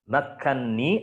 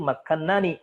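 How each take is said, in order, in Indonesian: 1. Dua bunyi n menyatu jadi satu n bertasydid. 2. Dua bunyi n dipisah oleh sebuah vokal. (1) "sudah diidghamkan" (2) "aslinya itu makannani"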